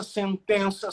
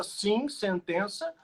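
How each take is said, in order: First: Said in the usual way. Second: "sim, sentença" drawn out slowly, leaning on sim; slow emphatic sim sentença. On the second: Real, not acted. ("sim, sentença" dito devagar e com ênfase em sim)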